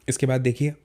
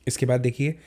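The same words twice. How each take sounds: No difference in how they are said.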